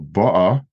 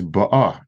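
First: "ba'a" as BA-a; front-stressed "ba'a", trailing second vowel; stress on first vowel. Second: "ba'a" as ba-A; end-stressed "ba'a"; stress on second vowel. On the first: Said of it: "the first vowel". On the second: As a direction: lean on the final vowel of "ba'a". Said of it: "and the second one". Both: Shown as a demonstration.

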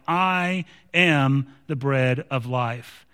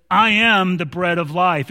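First: Slow and low, weighing each word; slow solemn close. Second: Said in the usual way. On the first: Retold or imitated. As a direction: lay it down gently and slowly. Closing the quoted verse, solemn.

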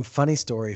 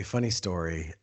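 First: Said in the usual way. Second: Quiet repeat. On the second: Real, not acted. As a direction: lower and softer echo. Repeats phrase, then drops voice.

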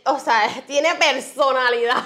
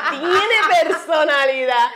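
First: Said in the usual way. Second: Slow, laughing repeat; amused, laughing through it. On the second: Real, not acted. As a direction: laugh it out fondly. Laughing, repeating about son.

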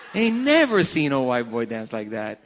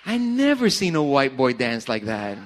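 First: Laughing through the words; amused laugh while repeating. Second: Said in the usual way. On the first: Real, not acted. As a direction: crack up as you say it again.

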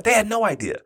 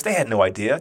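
First: They raised high on repeat; emphatic repeat. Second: Said in the usual way. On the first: Real, not acted. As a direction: lift "They had no idea" higher. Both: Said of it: "repeated with emphasis".

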